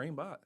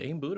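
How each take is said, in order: First: The second part rhymes with 'hot'. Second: The second part rhymes with 'boot'. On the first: "is it Aimboot or aimbot?" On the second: "is it Aimboot or aimbot?"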